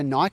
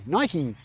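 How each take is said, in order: First: It is said as Australians said it. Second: It is said as Americans say it.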